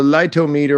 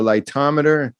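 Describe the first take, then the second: First: "lightometer" as light-oh-MEE-ter; light-oh-meter pronunciation. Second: "lightometer" as light-TOM-uh-ter; English-style pronunciation. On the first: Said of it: "I have said on the show". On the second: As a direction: say the second "lightometer" to rhyme with "thermometer". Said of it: "very English pronunciation is wonderful". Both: Shown as a demonstration.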